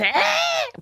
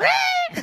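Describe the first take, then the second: First: Sudden very high bird cry; piercing imitated bird call; bird call imitation. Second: Very high echoing bird cry; answering the bird with the same high call. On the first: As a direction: mimic a forest bird's call. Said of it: "un ave que hace". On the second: Shown as a demonstration. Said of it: "pues yo lo hago".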